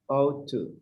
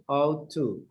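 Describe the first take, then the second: The two takes are said the same way.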